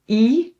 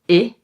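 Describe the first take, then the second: First: The vowel is held long. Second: The vowel is cut short. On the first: "long pronunciation" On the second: "we can also pronounce them short"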